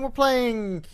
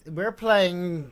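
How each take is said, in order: First: The phrase is said very quickly. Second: The phrase is said slowly. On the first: The speaker calls it wrong. "I said that very fast" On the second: The speaker calls it right. "Slow down"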